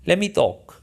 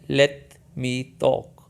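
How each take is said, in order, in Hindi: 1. तेज़ी से बोलने पर "Let me" मिलकर "lemme" बन जाता है। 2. "Let me" को दो अलग शब्दों की तरह बोला जाता है। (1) "जब आप तेज़ी से बोलेंगे तो लेट मी एक लफ्ज़ बन जाएगा" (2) "in English लेट मी talk"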